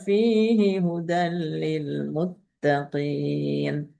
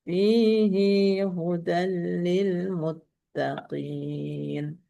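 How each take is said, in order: First: The final vowel of fihi is kept short. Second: The final vowel of fihi is lengthened. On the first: This follows the other reading traditions. "tanpa silah" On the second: This follows one reading tradition. "Kalau haknya berbaris kasroh... disilahkan dengan ya"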